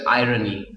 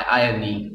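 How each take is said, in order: First: "irony" as eye-ruh-nee; three clear syllables in "irony", r sounded; correct pronunciation of irony. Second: "irony" as eye-un-ee, r dropped; "irony" with a silent r; mispronounced irony. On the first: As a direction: say "irony" with r opening the middle syllable. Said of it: "It is just irony". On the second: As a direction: say "irony" like British iron plus ee. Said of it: "It cannot have irony". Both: Shown as a demonstration.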